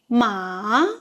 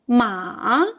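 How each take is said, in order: First: The pitch dips low and then rises. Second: The same.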